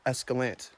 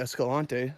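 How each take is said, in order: First: It is said with an American English pronunciation. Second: It is said with a Spanish pronunciation. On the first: This is how local residents say it. "the locals say Escalante" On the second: This follows the name's Spanish origin. "it seems like it should be Escalante. That's a Spanish word"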